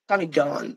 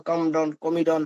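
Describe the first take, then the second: First: কামিডন said slowly and carefully, as "kamidon" with a long first a; correct pronunciation. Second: কমডন and কমিডন said with a short "ko" opening instead of "ka"; wrong pronunciations. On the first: Teacher showing students how to say কামিডন, slow and careful. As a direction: model the right sound of কামিডন slowly, "ka-mi-don". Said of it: "উচ্চারণ হবে কামিডন". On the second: Teacher listing students' usual mistakes, কমডন with "ko". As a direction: give the common mispronunciations কমডন, কমিডন with a "ko" sound. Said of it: "অনেকে অনেক উচ্চারণ করি".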